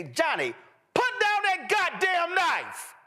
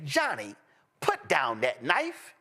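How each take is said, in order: First: Mock furious parent yelling at Johnny; cussing for emphasis. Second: Calm white person. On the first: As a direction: blow up on goddamn like a parent losing it. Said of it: "A black person would say". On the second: Retold or imitated. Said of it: "a white person would say".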